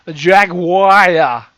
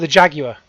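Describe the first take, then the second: First: It is said in an American accent. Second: It is said in a British accent.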